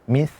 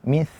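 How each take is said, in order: First: It has a th sound with the tongue at the teeth. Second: It has a th sound with the tongue at the teeth.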